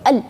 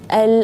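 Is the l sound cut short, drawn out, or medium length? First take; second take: cut short; medium. First: The l sound is held tight and cut short. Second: The l sound has a moderate length. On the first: The speaker calls it wrong. "nggak boleh al ditahan di situ, berarti itu syiddah" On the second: The speaker calls it right. "tapi dia tawassut"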